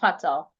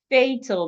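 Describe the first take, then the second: First: The first vowel sounds like 'ah'. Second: The first vowel sounds like 'ay'. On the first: The speaker calls it wrong. "the first letter A here is not sounding ah, so it's not fa" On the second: The speaker calls it right. "The first letter A is making this sound. A"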